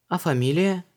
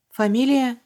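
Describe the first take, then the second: First: Luise asks «фамилия» in a high, even asking tone; «фамилия» asked lightly, high; plain question. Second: «Фамилия» repeated very high and louder with a falling stumble; caught-off-guard echo. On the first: Luise asks Vanessa his surname, curious. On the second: Vanessa caught out by Luise's question, stumbling. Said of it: "запнулась Ванесса". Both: A narrator's reading.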